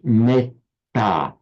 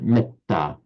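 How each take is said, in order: First: The vowel before the double consonant is long. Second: The vowel before the double consonant is short. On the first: This is how the word sounds in Sanskrit. "in Sanskrit, that would be pronounced metta. So the A would be have its full vocalic length" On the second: This is how the word sounds in Pali. "Whereas in Pali, it's pronounced short"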